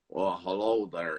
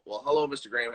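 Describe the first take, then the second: First: Slow, low Southern drawl imitating an old golfer. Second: Said in the usual way. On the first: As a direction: stretch out "hello there" in a lazy Southern drawl. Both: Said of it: "It's like southern drawl".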